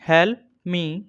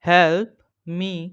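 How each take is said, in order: First: Said in the usual way. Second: Teacher breaking help me into words for students; help and me split by a pause. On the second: Shown as a demonstration. Word by word. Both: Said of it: "Daily use English short sentence".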